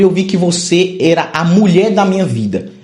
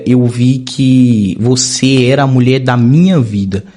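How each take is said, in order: First: It is said loud with very high energy. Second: It is said quieter in a low, deep voice.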